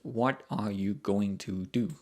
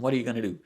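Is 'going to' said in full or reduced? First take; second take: full; reduced. First: Going to is said in full, unreduced. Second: Going to is reduced to gonna, spoken quickly. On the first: "the long version of that is" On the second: "it's very, very quick"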